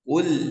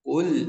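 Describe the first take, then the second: First: The q is released with the breath held back. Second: The q is released with the breath held back.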